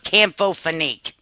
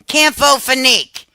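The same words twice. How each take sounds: First: Said in the usual way. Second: "Campho-Phenique" said higher and louder, each syllable punched; emphatic name. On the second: Shown as a demonstration. Pushing her favourite remedy on viewers, "Campho-Phenique" hit loud and high. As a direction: announce "Campho-Phenique" like a sales pitch.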